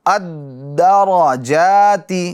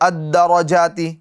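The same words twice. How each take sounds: First: The voice briefly holds on the doubled d. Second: The doubled d passes quickly without a hold. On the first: The speaker calls it right. "दाल में कुछ आवाज़ रुकेगी" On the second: The speaker calls it wrong. "अब यूं पढ़ने जाएंगे जैसे अद्दरजाती, तो ये गलत हो जाएगा"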